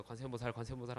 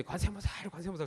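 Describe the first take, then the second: First: Soft, hushed 관세음보살 of thanks; relieved murmur. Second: High-pitched cry of 관세음보살 flung at the sky; mock shouting. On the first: Wife thanking Buddha after husband survives, soft and relieved. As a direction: breathe it out in relief, much softer. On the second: Wife on the roof screaming the prayer at the sky, high and wild. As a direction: holler it out with clothes torn open. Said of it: "소리를 막 질러요". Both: A narrator's reading.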